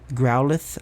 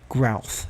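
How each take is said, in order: First: The word is said with two syllables. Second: The word is squeezed into one syllable. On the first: The speaker calls it right. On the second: The speaker calls it wrong.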